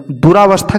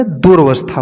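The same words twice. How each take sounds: First: दुरावस्था with "raa" in the middle; mispronounced दुरावस्था. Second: दुर्वस्था as "durvastha", no aa after r; corrected दुर्वस्था. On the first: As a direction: sound a long aa after the r of दुरावस्था. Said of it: "की जगह होता है". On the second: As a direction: run r straight into v in दुर्वस्था. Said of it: "होता है". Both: Shown as a demonstration.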